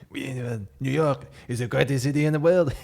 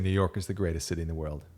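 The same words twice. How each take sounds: First: It is said in an exaggerated French accent. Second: It is said in the speaker's ordinary accent.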